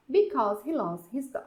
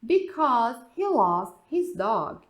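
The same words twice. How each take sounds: First: Said in the usual way. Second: Very slow, louder, stress on he; slow model answer. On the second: Shown as a demonstration. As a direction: spell out the answer slowly. (resposta lenta e marcada) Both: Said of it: "Aí você tem a resposta".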